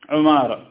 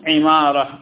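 First: The first vowel is u, as in Umara. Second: The first vowel is i, as in Imara. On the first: "ومنهم من ضمه، يعني قال عمارة" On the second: "بكسر العين"

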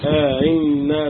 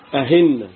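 First: The second hamza is softened after a lengthened vowel. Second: The second hamza is pronounced as an h sound. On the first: "وفي التسهيل مع الإدخال" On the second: "من الأخطاء الشائعة النطق بالهمزة المسهلة هاء"

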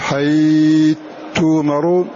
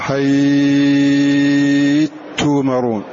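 First: The vowel before the merged letter is held medium. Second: The vowel before the merged letter is held long. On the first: "أو تقول" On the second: "أو تشبع"

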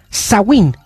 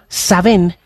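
First: The middle consonant sounds like a w. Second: The middle consonant sounds like a v. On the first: This is the Irish Gaelic word for November. "Es la palabra del gaélico irlandés" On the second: This is the Scottish Gaelic name for the All Hallows festival. "en gaélico escocés"

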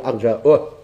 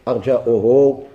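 First: The word ends with a lengthened final vowel. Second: The word ends on a consonant without vowel. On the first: The speaker calls it right. "كنا نقول أرجاؤه" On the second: The speaker calls it wrong. "مش نقول أرجاؤه"

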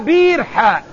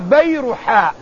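First: The name begins with the sounds 'bi'r'. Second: The name begins with the sounds 'bayra'. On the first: It is taken as naming a well. The speaker calls it wrong. "لا بيرحاء ... ليس البير اسم للموضع" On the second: It is the garden's own name. The speaker calls it right. "البستان والحديقة اسمها بيرحاء"

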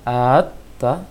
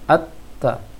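First: The opening vowel is drawn out before the consonant. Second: The opening vowel runs straight into the doubled consonant. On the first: The speaker calls it wrong. "jangan dibaca at-ta" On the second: The speaker calls it right. "tetapi at-ta"

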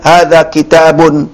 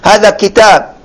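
First: The noun ends with a pronounced -un ending. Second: The noun ends without the -un ending. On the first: "diucapkan tanwinnya" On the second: "disukunkan ya biar lebih apa mudah"

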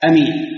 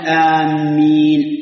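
First: The first vowel is short, the m single. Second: The m is doubled after a long vowel. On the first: It means: trustworthy. "صارت اسم فاعل من الأمان" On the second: It means: those heading toward. "صارت بمعنى قاصدي"

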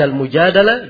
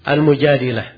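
First: The vowel after the d is a. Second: The vowel after the d is i. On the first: "bisa dibaca Al-Mujadalah" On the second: "bisa dibaca Al-Mujadilah"

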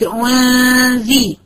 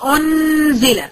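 First: The n is hidden in a nasal sound. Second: The n is pronounced fully and clearly. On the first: The speaker calls it right. "قلت انزي بقول غنه خارجه من خيشومه" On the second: The speaker calls it wrong. "ما قلتش انزل"

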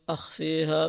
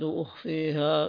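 First: The word begins with an 'a' vowel. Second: The word begins with a 'u' vowel. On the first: I almost reveal it. "بفتح الهمزة" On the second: I almost hide it. "بضم الهمزة"

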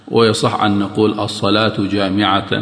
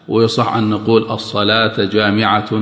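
The two takes are said the same way.

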